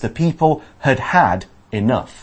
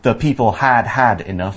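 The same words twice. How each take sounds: First: The first 'had' is short, the second longer. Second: The second 'had' is not lengthened. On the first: The speaker calls it right. "you always say the first one short and the second one longer" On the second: The speaker calls it wrong. "So not"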